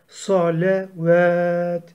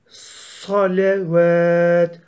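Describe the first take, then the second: Both takes have the same delivery.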